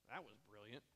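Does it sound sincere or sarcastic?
sarcastic. It sounds sarcastic and mocking.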